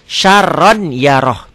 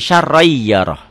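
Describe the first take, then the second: First: The n sound is pronounced before the y. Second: The n sound is dropped into a doubled y. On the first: This is how it is written. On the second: This is how it is recited.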